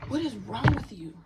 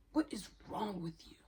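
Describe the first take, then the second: First: Loud, incredulous demand; exasperated outburst. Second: Said in the usual way. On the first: Real, not acted. Confronting someone who gave her the ick, loud exasperation. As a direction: burst out, much louder than usual talk. Angrily confronting an absent person.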